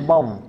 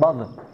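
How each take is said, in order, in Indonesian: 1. Konsonan akhir ditahan tanpa pantulan. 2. Konsonan akhir dilepas dengan pantulan bergema. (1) "Jangan ada qalqalahnya" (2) "bukan bod"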